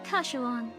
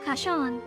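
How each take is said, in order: First: The name is said with a w glide. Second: The name is said without a w glide. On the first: The speaker calls it right. "Kashuan sounds like a better uh, pronunciation of it" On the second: The speaker calls it wrong. "is it Kashan or Kashuan?"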